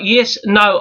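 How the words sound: It is spoken in a South African accent. "South African"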